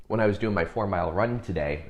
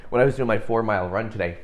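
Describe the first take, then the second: First: Said in the usual way. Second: Louder, quick, punched "four mile run today"; emphatic repeat. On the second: Shown as a demonstration. Runner plugs his run to viewers, emphatically stressing "four mile run today". Deliberate boastful repeat, counting mentions.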